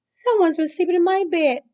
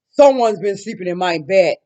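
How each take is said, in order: First: It is wailed tearfully in Mama Bear's voice. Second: It is roared loudly in Papa Bear's voice.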